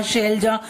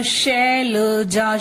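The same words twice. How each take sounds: First: Said in the usual way. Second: शैलजा stretched slowly as शै-ल-जा; syllable-by-syllable. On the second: Shown as a demonstration. Teacher offering a familiar name, syllable by syllable. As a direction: sound out शैलजा part by part. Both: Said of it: "वो नाम भी सुना होगा".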